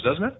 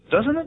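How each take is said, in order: First: Said in the usual way. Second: "Doesn't it?" pushed much higher, a pressing rising ask; emphatic repeat. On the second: Shown as a demonstration. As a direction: repeat "Doesn't it?" high to demand agreement.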